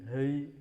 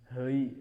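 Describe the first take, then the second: First: The vowel glides toward an ei sound. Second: The same.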